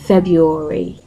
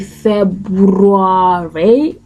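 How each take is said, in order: First: The R after 'Feb' is silent. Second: The R after 'Feb' is pronounced. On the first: The speaker calls it right. "the R in the word is not pronounced" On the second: The speaker calls it wrong. "you do not say February"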